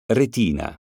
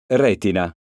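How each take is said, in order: First: Retina said as reTIna, middle syllable stressed. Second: Retina said as REtina, first syllable stressed. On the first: Teacher contrasting homographs for pupils, reTIna stressed. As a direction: lean on TI of Retina. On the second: Teacher contrasting homographs for pupils, REtina stressed. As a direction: hit RE in Retina. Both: Shown as a demonstration. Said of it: "Eccone alcuni esempi".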